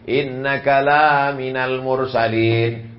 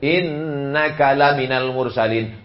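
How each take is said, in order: First: The vowel in 'la' is held long. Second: The vowel in 'la' is kept short. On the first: You are not among the messengers. The speaker calls it wrong. "Sesungguhnya engkau tidak termasuk Rasul" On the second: You are truly among the messengers. The speaker calls it right. "adalah sungguh salah satu dari rasul"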